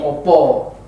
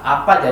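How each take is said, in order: First: The vowels are pronounced as a rounded 'o'. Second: The vowels are pronounced as an open 'a'. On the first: This is the later form from the Mataram era. "berubah menjadi O" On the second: This is the older form from before Mataram. "huruf vokal A"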